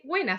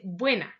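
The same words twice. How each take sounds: First: "buena" with the b dropped, said "wena"; casual street "buena", b swallowed into "wena"; slurred colloquial buena. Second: "buena" with a clear b at the start, "bwena"; careful standard "buena", b sounded; correct buena. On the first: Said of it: "no se dice". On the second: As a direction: pronounce the b in "buena" fully. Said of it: "se dice". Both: Shown as a demonstration.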